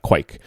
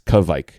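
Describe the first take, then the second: First: The word is said as one syllable. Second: The word is said as two syllables. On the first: The speaker calls it wrong. "It doesn't have one syllable. It's not quike" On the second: The speaker calls it right. "It has two syllables"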